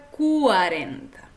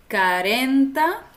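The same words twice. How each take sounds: First: Cuarenta with clear kwa and a falling end; correct cuarenta. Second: Carenta without the u, said louder; mock error carenta, dropping the ua glide; wrong carenta. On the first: Teacher gives the right form to learners. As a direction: stress cuarenta on ren, clean ua. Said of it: "se pronuncia cuarenta". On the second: Teacher shows the mistake carenta to learners. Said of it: "No se pronuncia". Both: Shown as a demonstration.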